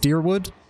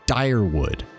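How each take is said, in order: First: The first vowel sounds like 'ee'. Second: The first vowel sounds like 'eye'. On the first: "it's pronounced like an E almost?" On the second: "That's probably pronounced with an I"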